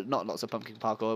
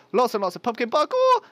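First: Said in the usual way. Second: High, loud, hammed-up enthusiasm; mock hype. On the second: Player joking about what the build needs, loud mock hype. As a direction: belt it out as a silly boast. Joke slip, corrected next line.

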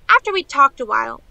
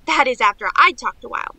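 First: Said in the usual way. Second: "I'd" leaned on as the correction; stress on I'd. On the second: Acted. Niece admits she did the talking, stressing "I'd". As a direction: correct herself by hitting "I'd".

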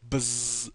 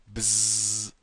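First: Buzzing fly noise, slightly higher. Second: Loud buzzing fly noise. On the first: Imitating a fly again. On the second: Imitating a fly. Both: Pretend. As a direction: buzz like a housefly.

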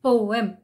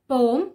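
First: Poem in two syllables, po-em; correct poem. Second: Poem squeezed to one syllable, pome; mispronounced poem; wrong poem. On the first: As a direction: give poem both syllables. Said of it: "the actual pronunciation is". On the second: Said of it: "pronounce it as poem". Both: Shown as a demonstration.

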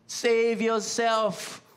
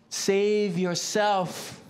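First: Slow mock taunt repeated. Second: Slow mock taunt. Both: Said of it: "mocking words".

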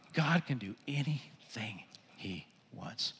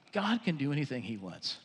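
First: Slow whisper, word by word; awed whisper. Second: Soft, low and reverent; quietly marvel, dropping well down; hushed awe. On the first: Preacher repeats God's power to congregation, slow whisper. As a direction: whisper it slowly in wonder. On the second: Preacher reflects on what God can do, hushed. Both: Real, not acted.

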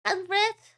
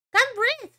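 First: Said in the usual way. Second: "Can't breathe." higher and louder, whining; louder sick whine; whiny repeat. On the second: Real, not acted. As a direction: complain it again with a groan.

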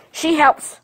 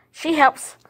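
No difference in how they are said.

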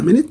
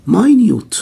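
First: Minute said MIN-it, stress on the first syllable, like the time unit; pron MIN-it. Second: Minute said my-NYOOT, stress on the second syllable, high and loud; pron my-NYOOT. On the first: Teacher contrasting the time-unit word, MIN-it. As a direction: minute as MIN-it, short i sounds. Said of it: "لو قلتها minute تبقى بمعنى دقيقة". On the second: Teacher showing students the tiny-meaning sound, my-NYOOT stressed. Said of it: "هنا نطقها minute لما تيجي شيء تفصيلي". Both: Shown as a demonstration.

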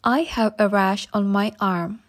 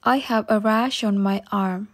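Both takes have the same delivery.

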